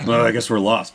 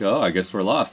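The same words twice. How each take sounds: First: It is said in an irritated, angry way. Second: It is said in a playful, flirty way. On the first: The remark comes across as hostile. The speaker calls it wrong. "it came off like he was mad" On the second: The remark is meant as friendly teasing. The speaker calls it right. "they tried to give him that sort of flirty"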